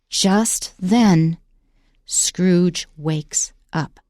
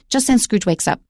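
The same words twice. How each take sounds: First: Slow, with a pause after each word. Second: Fast, with the words run together. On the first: Something big is about to happen. The speaker calls it right. "You need to put a little pause after each one" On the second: The effect is lost. The speaker calls it wrong. "So don't say, ... I can't even say it fast"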